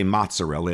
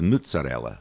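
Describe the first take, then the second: First: It is said with standard Italian vowels. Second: It is said with a Neapolitan u vowel.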